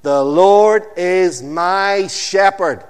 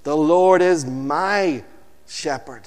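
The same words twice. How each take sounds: First: "Lord" stretched and loud, the rest slower; stress on Lord. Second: "Lord" loud and stretched, shepherd falling away; slow, weighty "Lord", then soften; stress on Lord. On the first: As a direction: Lord drawn out, slow and loud. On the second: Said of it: "Say it with me". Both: Shown as a demonstration.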